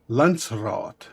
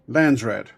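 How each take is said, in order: First: The word is said with an Afrikaans pronunciation. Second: The word is said with an anglicized pronunciation. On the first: This follows the Afrikaans word for council. "because of Afrikaans, it's pronounced as Landsraad" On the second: This is how it was heard in the movie. "my brain's telling me it's being pronounced as Landsrat"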